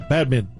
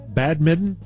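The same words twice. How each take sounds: First: The word is said quickly and smoothly. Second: The word is said slowly and carefully. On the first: The speaker calls it right. "You know, you say it fast" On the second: The speaker calls it wrong. "But no one says it like that"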